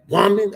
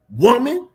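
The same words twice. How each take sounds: First: Louder, higher "Woman" to get it right; a second take of Jesus saying "Woman"; practicing Jesus voice. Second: Loud, high call of "Woman"; stern Jesus calling "Woman"; commanding Jesus voice. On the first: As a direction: try the commanding "Woman" again. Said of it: "I gotta practice my woman". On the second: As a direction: bark "Woman" like Jesus checking her. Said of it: "Jesus probably had a more stronger voice". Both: Acted.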